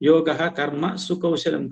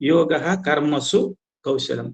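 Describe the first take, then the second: First: The break falls right after karma. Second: The break falls right after karmasu. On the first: The speaker calls it wrong. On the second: The speaker calls it right.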